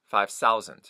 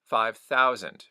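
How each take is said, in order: First: Thousand begins with an s sound. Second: Thousand begins with a th sound.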